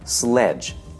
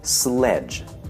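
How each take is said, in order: No difference in how they are said.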